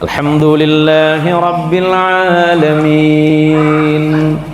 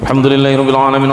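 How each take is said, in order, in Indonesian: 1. Dibaca pelan dan panjang-panjang. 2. Dibaca sangat cepat tanpa jeda. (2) "Yang hadir ini yang paling populer"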